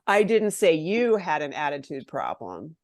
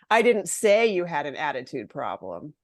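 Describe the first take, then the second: First: The stress falls on the word you. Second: The stress falls on the word say. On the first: It was said about someone else. "I was saying it about someone else" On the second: It was written rather than said. "Maybe I wrote it in an email"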